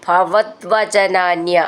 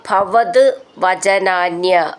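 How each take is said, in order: First: The two words run together with a d sound. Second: The two words are said separately, ending in t.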